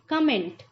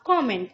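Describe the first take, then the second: First: The first vowel sounds like 'cum'. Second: The first vowel sounds like 'com'. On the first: The speaker calls it wrong. "जो कि एक सही उच्चारण नहीं है" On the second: The speaker calls it right. "इसका proper way होगा बोलने का कॉमेंट"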